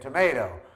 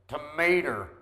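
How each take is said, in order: First: The word ends with an 'oh' sound. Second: The word ends with an 'er' sound.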